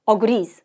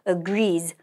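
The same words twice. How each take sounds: First: The stress is on the first syllable. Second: The stress is on the second syllable. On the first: The speaker calls it wrong. "앞에 어택 들어가면 안 되고요" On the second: The speaker calls it right. "뒤에 살짝 강세 들어가는 거"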